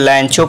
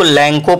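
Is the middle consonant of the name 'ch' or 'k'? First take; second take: ch; k. First: The middle consonant is a ch sound. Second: The middle consonant is a hard k sound. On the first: "कुछ लोग लैंचो पढ़ते हैं" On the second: "कुछ लोग इसको लैंको पढ़ते हैं"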